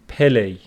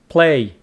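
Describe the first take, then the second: First: An extra vowel separates the p and l. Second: The p and l are said together. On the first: The speaker calls it wrong. "Some students go pele. So that's wrong" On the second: The speaker calls it right. "It is play"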